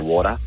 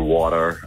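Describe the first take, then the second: First: It is said with an Australian accent. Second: It is said with an American accent. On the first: She is talking at home. "when she's at home, she'll say" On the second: She is talking with her friends. "if she's with her friends, she'll say"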